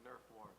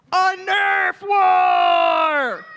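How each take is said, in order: First: Barely voiced, whispered answer; shy whisper. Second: Drawn-out slow shout; loud on request. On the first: Child answering the pastor, whispered. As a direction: mumble it too shyly to hear. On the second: Child told to say it loud, shouting slowly. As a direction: belt it out slowly into the mic. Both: Real, not acted. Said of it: "Say it loud for everyone to hear".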